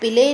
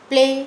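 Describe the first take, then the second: First: An extra vowel splits the opening p and l. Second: The opening p and l blend with no vowel. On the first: The speaker calls it wrong. "हमको पिले नहीं बोलना" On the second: The speaker calls it right. "पहले अक्षर को आधा ही पढ़ना है"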